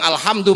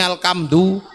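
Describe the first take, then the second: First: It is said with Arabic sounds, with an h. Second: It is said with Javanese sounds, with a k.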